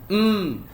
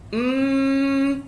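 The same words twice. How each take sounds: First: The nasal hum is very light. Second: The nasal hum is strong and long. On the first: "Bunyi hidung ni paling rendah" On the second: "naik atas lagi, dia bunyi idgham"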